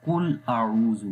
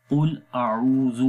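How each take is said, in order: First: قل اعوذ with a light ک instead of ق; wrong light kaf. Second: قل اعوذ with full heavy qaf; correct heavy qaf. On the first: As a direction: say قل with a plain k sound. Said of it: "اگر آپ اس قاف کی جگہ چھوٹا قاف پڑھ دیں گے". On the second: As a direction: stretch out قل with a thick back-throat ق. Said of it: "قل کے اندر قاف نقطوں والا قاف ہے جو کہ موٹا پڑھا جاتا ہے". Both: Shown as a demonstration.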